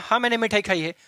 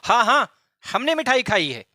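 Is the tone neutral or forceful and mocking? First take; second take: neutral; forceful. First: It is said in a plain, neutral tone. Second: It is said with forceful, mocking pressure.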